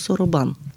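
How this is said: It is said with Japanese vowels. "на японски се нарича соробан"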